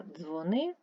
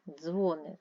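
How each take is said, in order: First: Дзвони rising on stressed -ни; stress on second syllable. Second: Дзвони with the weight on Дзво-; stress on first syllable. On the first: Teacher explaining phoning, second-syllable stress on дзвони. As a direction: lean on the end of дзвони. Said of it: "телефонуй". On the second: Teacher explaining bells in a belfry, first-syllable stress on Дзвони. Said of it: "на дзвіниці". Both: Shown as a demonstration.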